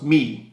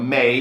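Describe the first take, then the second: First: The vowel sounds like "ee" in "see". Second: The vowel sounds like "ay" in "say". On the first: The speaker calls it wrong. "shouldn't that be pronounced me, right? Because that's the way you should pronounce it when you read it in English" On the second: The speaker calls it right. "me, which is, you know, may"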